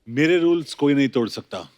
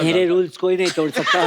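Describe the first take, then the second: First: It is said in his normal voice. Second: It is said in a squeaky, high voice.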